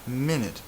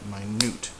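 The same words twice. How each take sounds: First: The stress falls before the final syllable. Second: The stress falls on the final syllable. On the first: The speaker calls it wrong. "Not minute" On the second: The speaker calls it right. "the stressed syllable is on the end"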